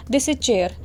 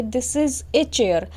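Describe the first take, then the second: First: Said in the usual way. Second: Slow "This is a chair", with "a" set apart; article clearly voiced. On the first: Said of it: "अगर हम ए नहीं लगाते हैं". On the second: Shown as a demonstration. Teacher showing students the English translation, article "a" clearly sounded. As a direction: draw it out, giving "a" its own beat. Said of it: "तो हम लिखेंगे".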